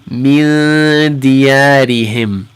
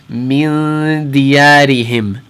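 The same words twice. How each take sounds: First: The nasal n sound is held for two beats. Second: The same.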